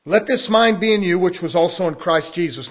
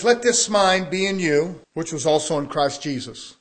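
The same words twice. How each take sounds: First: Second reading louder with weight on "mind"; emphatic reread. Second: Said in the usual way. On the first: Shown as a demonstration. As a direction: hit "mind" hard the second time. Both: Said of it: "It says".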